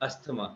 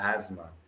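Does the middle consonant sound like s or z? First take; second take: s; z. First: The middle consonant is not a z sound. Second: The middle consonant is a z sound. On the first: The speaker calls it wrong. "it's not asthma" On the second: The speaker calls it right. "It's a z sound"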